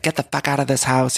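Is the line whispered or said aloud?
aloud. It is said aloud in a normal voice.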